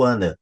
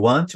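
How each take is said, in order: First: "wanna" with both Ts dropped; quick demo of joined "wanna"; reduced form. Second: "want" with the T still sounded, "want-chu"; quick demo of full "want"; unreduced form. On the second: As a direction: show the unjoined "want to". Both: Shown as a demonstration. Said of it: "vão falar pra repetir o want ou ana".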